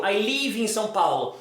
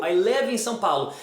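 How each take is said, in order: First: "live" said as leev; Portuguese long I in "live"; wrong long vowel. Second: "live" said close to lev; short lax vowel in "live"; correct short vowel. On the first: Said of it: "você não vai falar". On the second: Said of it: "você vai falar". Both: Shown as a demonstration.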